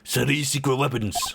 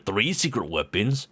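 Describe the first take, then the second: First: Three is said Japanese-style, sounding like suri. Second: Three is said with a plain English pronunciation.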